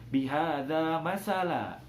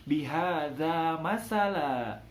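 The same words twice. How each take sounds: The two takes are said the same way.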